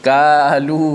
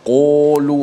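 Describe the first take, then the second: First: The first consonant is thin like a plain k. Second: The first syllable is overdone with rounded lips. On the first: "tidak boleh baca kalu" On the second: "sampai bulat mulut"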